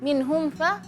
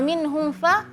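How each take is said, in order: First: The m sound is cut short before fa. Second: The same.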